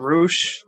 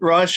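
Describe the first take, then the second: First: The name is said with a Spanish vowel. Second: The name is said with an English vowel.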